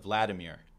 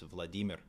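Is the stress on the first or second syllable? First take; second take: first; second. First: The stress is on the first syllable. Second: The stress is on the second syllable. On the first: The speaker calls it wrong. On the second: The speaker calls it right.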